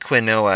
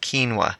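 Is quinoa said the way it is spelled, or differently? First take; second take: as spelled; differently. First: The word is said the way it is spelled. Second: The word is said differently from its spelling. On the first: This is how it was said before. The speaker calls it wrong. "It looks like quinoa, and that's how I used to pronounce it" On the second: This is how it is really said. The speaker calls it right. "but it's actually quinoa"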